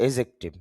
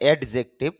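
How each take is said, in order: First: No 'd' sound comes before the 'j'. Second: A 'd' sound comes before the 'j'. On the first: The speaker calls it right. "তবে শুদ্ধ উচ্চারণ হবে এজেক্টিভ" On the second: The speaker calls it wrong. "এডিজে মানে এডজেক্টিভ"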